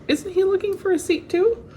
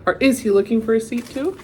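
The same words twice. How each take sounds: First: Too lifted high at the end; stress on too. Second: Quicker, leaning on "is"; stress on is. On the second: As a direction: punch the word "is". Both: Shown as a demonstration. Rereading the question with varied stress.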